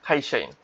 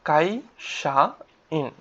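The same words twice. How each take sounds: First: খাইশাইন with a breathy kh at the start; খাইশাইন, the opening k breathed out like kh; aspirated kh. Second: কাইশাইন drawn out very slowly, each sound held; slow model pronunciation. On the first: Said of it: "একটু খয়ের মতো হয় আর কি". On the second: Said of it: "কায়ের উচ্চারণটা কিন্তু খ". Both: Shown as a demonstration.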